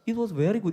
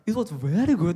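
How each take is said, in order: First: It is said flatly, with little energy. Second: It is said with exaggerated, lively energy. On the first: The speaker calls it wrong. "그냥 it was very good 이렇게 발음하지 않아요" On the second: The speaker calls it right. "이렇게 오버해서 얘기한다고요"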